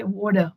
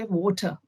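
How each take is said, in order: First: "water" with a clear r at the end, "wɔter"; American water. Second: "water" with a dropped r, ending in a soft uh; British water. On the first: Contrasting the American "water" with the British one. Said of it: "But in America". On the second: A UK-based Indian speaker showing the British "water". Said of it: "here we say water". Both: Shown as a demonstration.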